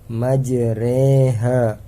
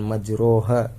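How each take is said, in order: First: The vowel after r leans toward an e sound. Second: The vowel after r is a plain open vowel. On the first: The speaker calls it right. "memiringkan fathah ke kasroh" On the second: The speaker calls it wrong. "bukan majroha"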